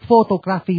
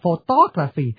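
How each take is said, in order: First: The stress is not on the second syllable. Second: The stress is on the second syllable. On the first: The speaker calls it wrong. "Quý vị mà đọc photography là không được" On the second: The speaker calls it right. "thì phải nhấn chữ tô"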